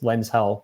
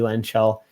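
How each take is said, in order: First: The name is split as lens plus hell. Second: The name is split as lens plus shell. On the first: "I was always read it as Lens Hell" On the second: "but maybe Lens Shell"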